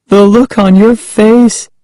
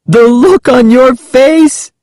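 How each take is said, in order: First: Put-on high, teasing girl's voice; rubbing it in. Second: Put-on high, drawn-out, gleeful girl's exclamation. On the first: Prankster still chuckling at her cousin, high taunt rubbing it in. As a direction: repeat it high to needle the victim. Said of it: "rubbing it in". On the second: Prankster to scared cousin after laughing, gleeful high exclamation. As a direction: exclaim it high, mocking the victim. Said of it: "she exclaimed when she finally stopped laughing". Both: A narrator's reading.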